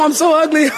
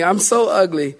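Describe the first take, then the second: First: It is said in a happy, delighted tone. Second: It is said in a miserable, complaining tone.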